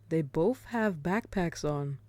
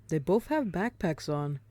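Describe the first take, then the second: Both takes have the same delivery.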